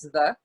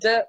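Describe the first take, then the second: First: The consonant is a soft th-like sound. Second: The consonant is a hard d sound. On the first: The speaker calls it right. "it's the" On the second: The speaker calls it wrong. "it's not D"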